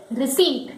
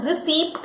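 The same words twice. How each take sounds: First: "receipt" as rih-SEET; silent P. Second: "receipt" with the P sounded, rih-SEEPT; wrong receipt. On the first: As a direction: drop the P in "receipt". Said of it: "where P is silent". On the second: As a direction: pronounce the P in "receipt". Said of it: "correct pronunciation is not receipt". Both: Shown as a demonstration.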